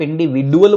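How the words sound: It is said with a d sound, American.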